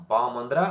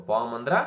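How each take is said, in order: No difference in how they are said.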